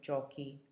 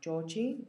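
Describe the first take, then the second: First: The middle consonant is a hard 'k' sound. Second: The middle consonant is a soft 'ch' sound. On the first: The speaker calls it right. "instead of giochi" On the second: The speaker calls it wrong. "It would sound like giochi"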